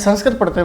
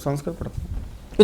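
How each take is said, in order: First: The phrase is said loudly and clearly. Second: The phrase is said very quietly. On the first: The speaker repeats it because the listener did not hear. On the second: The speaker feels ashamed to admit it.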